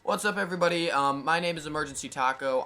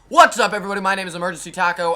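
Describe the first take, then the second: First: It is said quietly with low energy. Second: It is said loudly with high energy.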